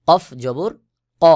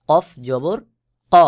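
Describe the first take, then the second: Both takes have the same delivery.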